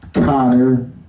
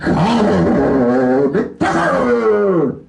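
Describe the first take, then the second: First: It is said in his normal speaking voice. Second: It is said in a UFC announcer voice.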